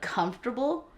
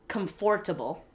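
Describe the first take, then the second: First: It is pronounced the common standard way. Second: It is pronounced the way it is spelled. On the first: This is how most people say it. "instead of comfortable" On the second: This is how the family at home said it. "they would always say comfortable"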